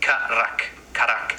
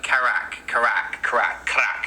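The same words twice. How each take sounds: First: "karak" with a short vowel after each consonant, ka-rak; correct karak. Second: "karak" run together almost like "crack"; mispronounced karak. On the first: Teacher correcting the crack version, careful "karak". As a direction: say "karak" as two short syllables, never "crack". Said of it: "It's not like crack, it's like karak". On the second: Teacher mimics how people say it, mispronounced "karak". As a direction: say "karak" squashed toward English "crack". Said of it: "and they're like". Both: Shown as a demonstration.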